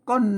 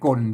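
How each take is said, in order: First: The word carries the special tho tone. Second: The word carries the ek tone. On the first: "ออกเสียงก้นเห็นไหมเสียงโทพิเศษ" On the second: "ใส่ไม่เอกก้นก้นเสียงเสียงไม่เอก"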